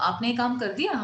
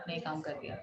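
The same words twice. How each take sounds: First: The voice rises at the end. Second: The voice falls at the end. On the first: It asks someone a question. "अगर पूछ रहे हैं तो ... हमारा sentence का जो टोन है that will be changed" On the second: It informs someone of a fact. "हम किसी को इन्फॉर्मेटरी बता रहे हैं"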